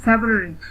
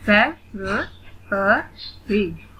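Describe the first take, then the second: First: Said in the usual way. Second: "फेब्रुअरी" very slowly in four beats; split into syllables. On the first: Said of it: "read the word". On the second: Shown as a demonstration. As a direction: spell out "फेब्रुअरी" syllable by syllable, with gaps. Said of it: "split in the syllables". ("फेब्रुअरी" का हर syllable अलग, धीरे)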